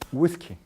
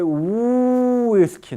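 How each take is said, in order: First: The opening glide is said short and brief. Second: The opening glide is drawn out long. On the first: The speaker calls it right. "Se pronuncia más breve" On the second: The speaker calls it wrong. "Nunca dice whisky, no"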